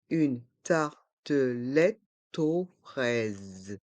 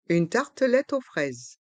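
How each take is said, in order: First: Slow "Une tartelette aux fraises", every syllable apart; learner-paced, split "Une tartelette aux fraises". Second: Said in the usual way. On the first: Shown as a demonstration. Teacher breaks phrase into syllables.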